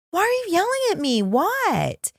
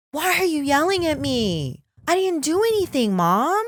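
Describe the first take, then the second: First: Much higher and fast, building indignation; hammed-up exasperated teen, fast and high; exasperated daughter. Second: Put-on higher, indignant teen voice; mock hurt daughter, voice raised high; protesting daughter. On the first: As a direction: push the mock protest up a notch. Daughter repeats protest, escalating. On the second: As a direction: imitate a kid who feels wrongly accused. Headstrong daughter protesting mom.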